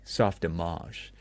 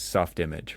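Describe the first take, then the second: First: The name is said in a pretentious, showy way. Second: The name is said in a plain, ordinary way. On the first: The name belongs to a fancier tier than expected. "somebody says very pretentiously" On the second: This is how a first-time reader imagines it. "when you read it, you think it's"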